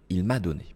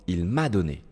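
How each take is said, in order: Both takes have the same delivery.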